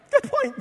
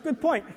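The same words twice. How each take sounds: First: Much higher, sheepish Good point; surprised concession. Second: Said in the usual way. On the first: Retold or imitated. Abel conceding to God, high and sheepish. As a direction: yield with a startled laugh in the voice.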